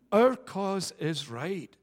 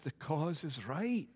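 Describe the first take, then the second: First: Our punched, slow and deliberate; stress on OUR. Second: Said in the usual way. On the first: Shown as a demonstration. Preacher to congregation, stress on Our slowly. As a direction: lean hard on Our, each word weighed.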